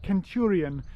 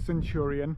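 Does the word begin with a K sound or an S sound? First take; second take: K sound; S sound. First: The word begins with a hard K sound. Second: The word begins with a soft S sound. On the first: This is how the Romans would have said it. "the sound that we now use as a hard K" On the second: This is the modern English way of saying it. "We have a soft C in English today"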